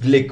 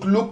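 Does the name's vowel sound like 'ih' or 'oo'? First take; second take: ih; oo. First: The vowel sounds like the i in kick. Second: The vowel sounds like the oo in book. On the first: The speaker calls it right. "Pronunciation is ग्लिक" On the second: The speaker calls it wrong. "लोग ग्लुक ग्लुक कर रहे"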